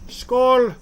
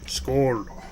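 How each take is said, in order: First: It is said in a normal voice. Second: It is said in a deeper voice.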